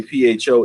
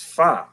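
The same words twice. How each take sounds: First: "pho" said like "foe", long O. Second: "pho" with an open "fah" or "fuh" vowel. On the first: Host gives the natural reading, "pho" said as "foe". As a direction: say "pho" with the O of phone. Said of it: "naturally, you would say P H O is". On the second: Host repeats a viewer's correction, "pho" said as "fuh". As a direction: say "pho" without the O of phone, as "fuh". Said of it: "someone corrected me and said, actually, it's pronounced". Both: Shown as a demonstration.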